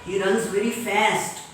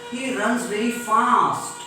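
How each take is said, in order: First: FAST with front "a" as in cat; cat vowel in FAST; American fast. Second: FAST with long open "ah", "faast"; slow, broad vowel on FAST; British fast. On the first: Teacher contrasting for class, FAST with American cat vowel. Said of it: "In American English". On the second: Teacher giving British example, FAST as "faast". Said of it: "In British English". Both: Shown as a demonstration.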